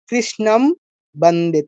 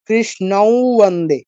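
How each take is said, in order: First: The first word ends in a clear m. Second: The first word ends in a nasalized glide. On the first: The speaker calls it wrong. "আমি যদি ম বলতে যাই" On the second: The speaker calls it right. "একটা কৃ টা মনে হয় যেন আরেকটা ব এসেছে এখানে"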